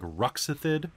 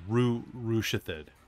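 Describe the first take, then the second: First: The middle consonant is pronounced 'ks'. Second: The middle consonant is pronounced 'sh'. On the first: "Does that sound like Ruxithid?" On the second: "Or does it sound like Rushithid?"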